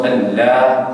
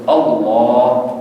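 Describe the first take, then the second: First: اللہ spoken quickly with a thin, flat "ala"; the incorrect thin اللہ; wrong pronunciation. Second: The correct heavy-lam اللہ; correct heavy Allah. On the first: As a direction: say اللہ short with a light lam. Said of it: "یہ غلط ہے تلفظ". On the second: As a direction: stretch اللہ out with a full dark lam. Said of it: "اس کا تلفظ ہے". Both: Shown as a demonstration.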